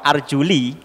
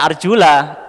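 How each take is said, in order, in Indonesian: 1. Kata ini berakhir dengan vokal 'i'. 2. Kata ini berakhir dengan vokal 'a'. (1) "kalau dibaca kasroh arjuli" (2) "Kalau dibaca arjula"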